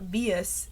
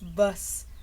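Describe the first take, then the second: First: The ending has an extra 'ee' sound, two syllables. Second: The ending is one syllable, 'vus'. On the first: The speaker calls it wrong. "It's not vius" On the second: The speaker calls it right. "it's bus"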